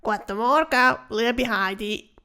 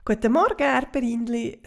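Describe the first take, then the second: First: Louder, grunting critter voice, slowing down; grunting cockroach. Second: Cheerful fairy greeting over the garden fence; calling out a greeting. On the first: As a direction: grunt the greeting like a sly bug. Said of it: "winkt und grunzt". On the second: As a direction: Heidi calling to her neighbour over the fence. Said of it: "ruft Heidi der Schabe zu". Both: Acted.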